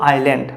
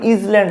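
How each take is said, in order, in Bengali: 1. s টি নীরব থাকে। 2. s টি z এর মতো উচ্চারিত হয়। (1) "এর উচ্চারণ কি হবে আইল্যান্ড" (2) "এটার উচ্চারণ কিন্তু ইজল্যান্ড হবে না"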